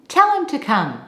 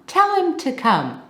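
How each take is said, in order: The two takes are said the same way.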